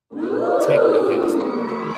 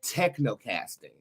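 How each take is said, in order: First: "Technocasting" stretched very slow in a very high breathy voice; "Technocasting" sung out high, airy and drawn out; dramatic reveal. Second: Said in the usual way. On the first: Acted. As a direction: unveil "Technocasting" like a grand magic word. Unveiling the new concept's name.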